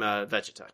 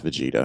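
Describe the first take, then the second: First: Vegeta said the wrong way, stress off; mispronounced name. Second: Vegeta as vuh-JEE-tuh, middle syllable stressed; correct pronunciation. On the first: Real, not acted. Host guessing at an announcer's word for the co-host, mispronounced. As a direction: fumble the name Vegeta as if unsure of it. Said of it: "it's not how it's said". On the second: Shown as a demonstration. Co-host correcting the host's Vegeta, correct pronunciation. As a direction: say Vegeta clearly, with a long JEE. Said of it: "it is pronounced Vegeta".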